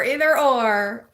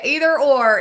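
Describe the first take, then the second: First: Said in the usual way. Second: Higher and louder, still thrilled; excited. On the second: Real, not acted. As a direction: keep the excitement up. Repeats the phrase excitedly.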